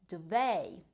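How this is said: It is said with an American pronunciation.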